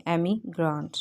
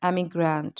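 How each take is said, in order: First: एमिग्रेंट parted as "emi... grant"; broken into parts. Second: Said in the usual way. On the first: Shown as a demonstration. Teacher modelling pronunciation, एमिग्रेंट split before "grant". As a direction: say एमिग्रेंट in two careful pieces, gap before "grant". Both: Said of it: "इनकी हमने pronunciation करनी है".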